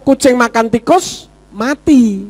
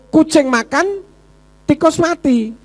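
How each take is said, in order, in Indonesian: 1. Ada jeda setelah kata tikus. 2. Ada jeda setelah kata makan. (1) "Yang mati siapa? Kucingnya" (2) "Kucingnya enak-enak makan, tikusnya mati"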